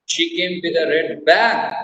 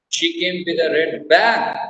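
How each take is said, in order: First: The stress is on "bag". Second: The same.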